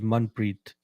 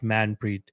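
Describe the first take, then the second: First: The first vowel sounds like the vowel in 'gun'. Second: The first vowel does not sound like 'gun'. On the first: The speaker calls it right. "should be pronounced as Manpreet, as in gun" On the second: The speaker calls it wrong. "not Manpreet"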